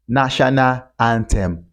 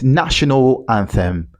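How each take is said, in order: First: Anthem is said with a hard t sound. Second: Anthem is said with a soft th sound. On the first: The speaker calls it wrong. "not national anthem" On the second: The speaker calls it right. "it's national anthem"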